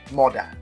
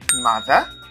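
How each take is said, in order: First: The middle consonant is a d sound. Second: The middle consonant is a th sound. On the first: "The Nigerian pronunciation of this word is moda" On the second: "Some children may not understand when you say mother"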